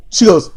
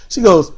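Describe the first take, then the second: No difference in how they are said.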